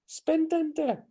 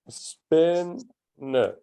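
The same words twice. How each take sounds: First: All three syllables are pronounced fully. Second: The middle syllable is dropped in fast speech. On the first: This is how the word is written. "Notice how it says spændende" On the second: This is how Danes actually say it in everyday speech. "Danes to speak fast, we often get rid of the middle syllable"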